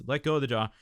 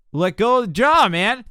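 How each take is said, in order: First: Said in the usual way. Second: "Let go of the jaw" called out much higher and louder; emphatic call. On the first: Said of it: "coach repeats his instruction". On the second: Real, not acted. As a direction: shout the instruction like a coach pushing a student. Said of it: "coach repeats his instruction forcefully".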